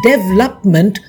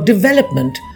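First: The stress falls away from the 'vel' syllable. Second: The stress falls on the 'vel' syllable. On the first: The speaker calls it wrong. "development for development" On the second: The speaker calls it right. "Stress on the velop in development"

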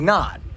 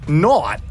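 First: The word has a plain short vowel. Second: The word has an 'or'-like vowel. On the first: "Usually you would say not" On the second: "so it's an or sound"

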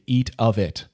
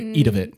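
First: Each word is pronounced clearly and separately. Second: The words are slurred together into one word. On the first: The speaker calls it right. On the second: The speaker calls it wrong. "You just made up your own word"

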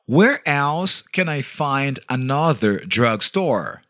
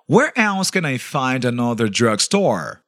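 First: It is said more slowly. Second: It is said at normal speed.

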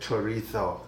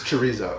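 First: The z is said like a th. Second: The z is said like a z. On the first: The speaker is putting on a Spanish pronunciation. The speaker calls it wrong. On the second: The speaker is using a plain local pronunciation. The speaker calls it right.

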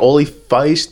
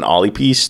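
First: The word is read with an English-style ending. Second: The word is read with a Gaelic-style ending. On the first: The speaker calls it wrong. "English tells me olifeist" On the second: The speaker calls it right. "but it's Gaelic, so I think it's pyst"

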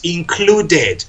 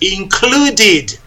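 First: The added final syllable sounds like 'ed'. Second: The added final syllable sounds like 'id'. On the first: The speaker calls it wrong. "no es included" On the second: The speaker calls it right. "la sílaba que se añade es id"

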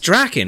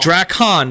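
First: The second syllable is reduced and unstressed. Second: The second syllable is clearly enunciated and full. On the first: The speaker calls it right. "It's just Draken" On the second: The speaker calls it wrong. "They kept saying Drakkon"

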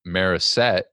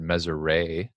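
First: The R and S sounds trade places. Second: The final T of the name is silent. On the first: "they just replace the R and the S" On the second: "a lot of people think the T at the end is silent"

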